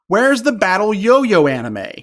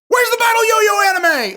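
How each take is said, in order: First: It is read in a calm, plain way. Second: It is read in a loud, excited way.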